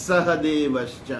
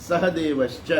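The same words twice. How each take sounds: No difference in how they are said.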